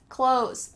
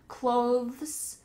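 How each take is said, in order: First: The th sound is left out. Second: The th sound is clearly pronounced. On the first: "when we're speaking quickly, it just sounds like clothes" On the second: "some people try to add the th in here"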